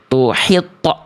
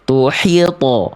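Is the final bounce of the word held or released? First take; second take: held; released. First: The final bounce is held back with a jolt. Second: The final bounce is released freely without holding. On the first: The speaker calls it wrong. "pantulan to-nya tertahan di ujung pelafalan" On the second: The speaker calls it right. "Harusnya tuhito. Ah, ya lempar aja"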